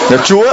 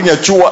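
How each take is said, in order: First: The word is said with standard Vietnamese tone. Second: The word is said with a Nghe An tone. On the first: "bà nói cho nó mạnh lên chứ" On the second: "người Nghệ An thì chúa cũng thành chùa"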